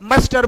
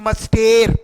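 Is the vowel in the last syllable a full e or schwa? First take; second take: schwa; full e. First: The last syllable has a weak schwa vowel. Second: The last syllable has a full e vowel. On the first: The speaker calls it right. "इसको मस्टर बोलते हैं" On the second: The speaker calls it wrong. "ना कि मस्टेर"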